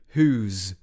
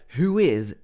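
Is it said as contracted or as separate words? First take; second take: contracted; separate. First: The two words merge into one syllable. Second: Both words are said fully and separately. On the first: "changes to whose" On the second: "who is changes to"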